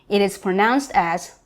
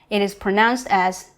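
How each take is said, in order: Both takes have the same delivery.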